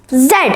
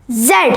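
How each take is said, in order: First: It is said the British way, as in the UK. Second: It is said the British way, as in the UK.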